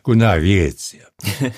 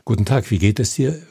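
First: The words are slurred together and mumbled. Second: Every word is articulated clearly and distinctly. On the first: The audience struggles to understand the words. The speaker calls it wrong. "Und nicht" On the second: The audience can understand every word. The speaker calls it right. "soll das die Zuschauer verstehen"

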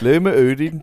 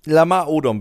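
First: The name is said with mock Danish-style vowels. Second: The name is said in its ordinary pronunciation. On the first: "Du musst den falsch aussprechen" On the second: "du hast den Namen nicht falsch ausgesprochen"

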